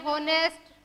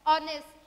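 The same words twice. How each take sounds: First: होनेस्ट with the H sounded; wrong pronunciation. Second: ऑनेस्ट starting on the O vowel; silent H. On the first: Teacher showing students what to avoid, होनेस्ट with a spoken H. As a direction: begin होनेस्ट on an audible H. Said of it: "ऐसे नहीं पढ़ेंगे हम इसको". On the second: Teacher giving students the right reading, ऑनेस्ट with silent H. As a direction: drop the H from ऑनेस्ट. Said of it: "इसको हमने क्या पढ़ा". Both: Shown as a demonstration.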